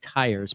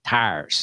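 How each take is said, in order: First: It is said with a standard American vowel. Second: It is said with a Pittsburgh flattened vowel. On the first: "I said tires" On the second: "really in Pittsburgh, we say it tires"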